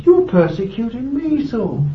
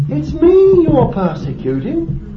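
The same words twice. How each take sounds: First: You're lifted and stressed, then persecuting me falls away. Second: Me lifted high and held, slow; stress on me. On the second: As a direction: slowly press the word me, rising. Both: Retold or imitated. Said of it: "Jesus said".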